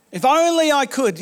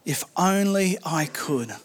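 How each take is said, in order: First: Said in the usual way. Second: Soft, slow, aching sigh of a wish; wistful longing. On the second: Shown as a demonstration. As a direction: let the wish hang, quiet and slow. Pastor voices David's longing.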